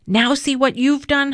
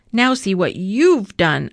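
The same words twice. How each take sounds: First: High, accusing cry. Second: Retorting. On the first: Hamudi accusing Avi of chasing the cat off. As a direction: blame him for scaring the cat. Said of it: "Hamudi accused". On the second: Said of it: "Avi answered back". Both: A narrator's reading.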